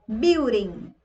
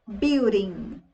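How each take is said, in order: No difference in how they are said.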